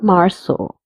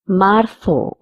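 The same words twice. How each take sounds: First: The z is said as an s sound. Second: The z is said as a th sound. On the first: "or sa" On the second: "Z is pronounced as th"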